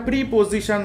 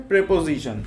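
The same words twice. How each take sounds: First: Teacher demonstrates the mistaken "pripojishan" for প্রিপোজিশন; wrong pronunciation. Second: প্রিপোজিশন said as "pre-po-zi-shon", with e in the first syllable and a z sound; teacher models the right "prepozishon" for প্রিপোজিশন; correct pronunciation. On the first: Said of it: "উচ্চারণটা প্রিপোজিশন না". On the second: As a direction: say প্রিপোজিশন properly as "prepozishon", set against the wrong take. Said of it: "উচ্চারণটা হচ্ছে প্রিপোজিশন". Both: Shown as a demonstration.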